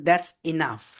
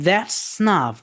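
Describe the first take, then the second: First: The first vowel of enough is pronounced. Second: The first vowel of enough is dropped.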